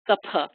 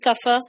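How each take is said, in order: First: The middle consonant is an aspirated p. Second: The middle consonant is an f sound. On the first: This is the purist pronunciation. "if you want to really be a purist, it's a P" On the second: This is how non-Indians can understand it. "it's okay to say kafa"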